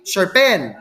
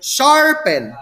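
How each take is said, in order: First: The stress is on the second syllable. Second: The stress is on the first syllable. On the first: The speaker calls it wrong. "You don't also say sharpen" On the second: The speaker calls it right. "If the stress falls on the first syllable, the word is feminine"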